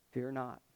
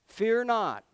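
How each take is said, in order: First: Soft, low "Fear not." said gently; quiet fear not. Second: "Fear not." ringing out louder and higher; proclaimed fear not. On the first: Moses telling the frightened people, soft and low. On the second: Preacher proclaiming to the congregation, loud declaration. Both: Shown as a demonstration.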